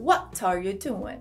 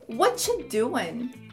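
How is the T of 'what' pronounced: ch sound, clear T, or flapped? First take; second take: clear T; ch sound. First: The T of 'what' is pronounced clearly. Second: 'What are you' merges into a 'whatcha' sound. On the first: It is how British speakers may say it. "no inglês britânico pode ser que eles pronunciam bastante esse T" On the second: It is a much more informal way of saying it. "pode soar como whatcha"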